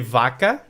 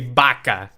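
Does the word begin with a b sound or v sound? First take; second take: v sound; b sound. First: It is said in a southern Portuguese accent. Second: It is said in a northern Portuguese accent.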